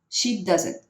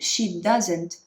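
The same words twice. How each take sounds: First: The final T is barely pronounced. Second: The final T is pronounced strongly. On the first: The speaker calls it right. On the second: The speaker calls it wrong.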